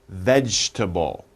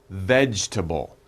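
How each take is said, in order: Both takes have the same delivery.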